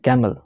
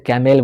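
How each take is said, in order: First: The second syllable has a weak schwa vowel. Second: The second syllable has a full 'e' vowel. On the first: The speaker calls it right. "कैमल नहीं कैमल" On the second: The speaker calls it wrong. "बहुत इसे कैमेल बोलता है"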